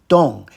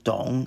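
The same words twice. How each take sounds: First: The pitch falls sharply from high. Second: The pitch dips low, then rises. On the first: "fourth tone" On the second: "third tone"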